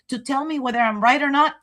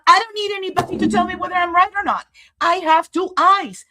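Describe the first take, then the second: First: Said in the usual way. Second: Much higher, louder and fast, fed up; indignant, rushed declaration; defiant outburst. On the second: Real, not acted. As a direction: snap back that nobody needs to tell you. Defiant outburst after self-doubt.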